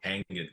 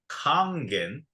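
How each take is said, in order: First: It is said with a Western pronunciation. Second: It is said with a Japanese pronunciation. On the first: The speaker calls it wrong. "Kangen is the Western pronunciation of the word" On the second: The speaker calls it right. "it's pronounced in Japan as Kangen"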